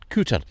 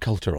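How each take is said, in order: First: The name is said without an L sound. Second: The name is said with an L sound. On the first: This is how local people say the name. "people who live here pronounce it Cooter" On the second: This is how the name is written on the map. "which has Peter Coulter on the map"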